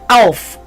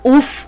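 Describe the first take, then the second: First: The vowel is an 'ow' sound. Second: The vowel is a short 'oo' sound. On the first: It is the standard form of the word. "but Auf" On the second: It sounds like low-life regional slang. "and not Uff"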